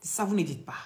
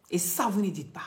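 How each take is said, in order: Both takes have the same delivery.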